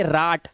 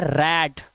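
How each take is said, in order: First: राट with a long "aa" vowel; mispronounced RAT. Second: रैट with an open "ae" vowel; correct RAT. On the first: Teacher warning how not to read rat, राट with "aa". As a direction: say राट as "raat", pitched lower. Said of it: "इसे राट नहीं पढ़ेंगे". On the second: Teacher giving the right reading, रैट with "ae". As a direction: say रैट as "raet", pitched lower. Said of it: "इसमें आवाज आएगी ए की". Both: Shown as a demonstration.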